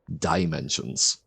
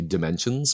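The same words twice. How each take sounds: First: The first syllable is clearly enunciated with full vowel. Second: The first syllable is reduced to a lazy vowel. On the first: "if I'm trying to enunciate it, it would be dimensions" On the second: "I typically, I think, say dimensions ... I go with the sort of lazy, laziest sound that I can produce"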